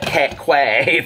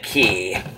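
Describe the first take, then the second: First: The word sounds like 'kway'. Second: The word sounds like 'key'. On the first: The speaker calls it wrong. "I called it Quay forever, and I was so embarrassed" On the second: The speaker calls it right. "you pronounce it Key"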